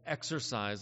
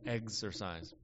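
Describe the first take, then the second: First: It is said with the usual pronunciation. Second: It is said with an alternate pronunciation.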